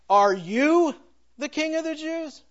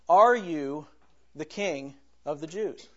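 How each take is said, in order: First: The stress is on the word you. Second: It is said without special stress on you.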